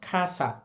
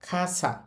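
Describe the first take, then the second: Both takes have the same delivery.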